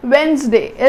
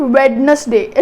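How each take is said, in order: First: Wednesday as wens-day, first d silent; correct pronunciation. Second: Wednesday as wed-nes-day, d sounded; wrong pronunciation. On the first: Teacher modelling Wednesday for students, correct pronunciation. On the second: Teacher showing students the mistake, wrong pronunciation. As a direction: say all three parts of Wednesday, d included. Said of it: "It's not Wednesday". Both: Shown as a demonstration.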